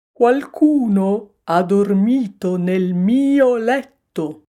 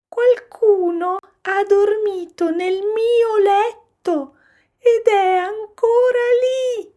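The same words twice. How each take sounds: First: Slow, loud, put-on bear grumble; papa bear grumbling. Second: Put-on very high, loud baby-bear squeal; little bear crying out. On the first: Papa bear finding his bed slept in, grumbling. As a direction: grumble loudly and slowly as the big bear. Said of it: "brontolò papà orso". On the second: Little bear spotting someone in his bed, shrieking. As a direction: shriek it like an alarmed cub. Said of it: "gridò piccolo orso". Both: A narrator's reading.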